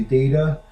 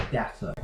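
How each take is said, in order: First: Data as DAY-ta; US-style data; American pronunciation. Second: Data as DAH-ta with a crisp t; British-style data; British pronunciation. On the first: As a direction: say data with a long a. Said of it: "So in the States, we would say". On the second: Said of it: "across the pond, they would say". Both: Shown as a demonstration.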